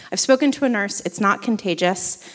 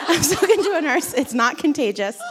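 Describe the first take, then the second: First: Said in the usual way. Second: Higher, laughing repeat of a fib; amused retelling. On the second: Retold or imitated. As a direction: repeat the reassurance through a laugh. Repeats her admitted lie, laughing.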